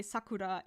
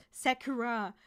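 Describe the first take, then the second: First: Sakura with a Japanese tapped r; Japanese pronunciation. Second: Sakura with a flat English a and English r; English-mode pronunciation. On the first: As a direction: say Sakura the Japanese way, short clean vowels and a tapped r. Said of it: "effort to say Sakura instead of". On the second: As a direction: Anglicize Sakura as SACK-er-ah. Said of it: "my mouth is in English mode". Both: Shown as a demonstration.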